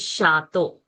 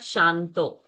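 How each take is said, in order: First: The first syllable has no nasal sound. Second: The first syllable has a nasal n sound. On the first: The speaker calls it right. "It is Shato" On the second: The speaker calls it wrong. "so many people chant over here with Anuswara. It is not Shanto"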